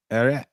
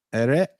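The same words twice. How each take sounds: The two takes are said the same way.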